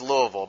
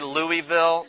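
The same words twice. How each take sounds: First: It is said with the local pronunciation. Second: It is said with an outsider's pronunciation. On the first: The speaker is from the area. The speaker calls it right. "it is Louisville" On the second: The speaker is not from the area. The speaker calls it wrong. "they're not from here"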